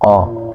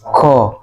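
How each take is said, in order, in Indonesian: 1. Konsonan itu diucapkan dengan napas tertahan. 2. Konsonan itu diucapkan dengan napas mengalir keluar. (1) "kalau ko itu tidak ada aliran nafasnya" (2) "kalau masih ada aliran nafasnya ko, nah ini berarti masih masih keliru ya"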